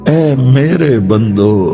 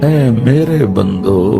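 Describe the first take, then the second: The two takes are said the same way.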